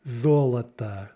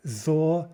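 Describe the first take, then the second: First: Золото joined up as ZO-luh-tuh; stress on first syllable. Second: Золото split as ZO, luh, tuh with pauses; syllable by syllable. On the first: Teacher shows unstressed vowels, золото said whole with first stressed. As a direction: say золото as one word, last two vowels reduced. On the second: Teacher shows the stressed first syllable, Золото broken apart. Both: Shown as a demonstration. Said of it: "first syllable is stressed".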